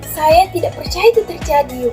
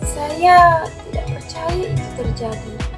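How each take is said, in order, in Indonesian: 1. Diucapkan dengan nada senang, gembira. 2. Diucapkan dengan nada sedih, penuh kesedihan.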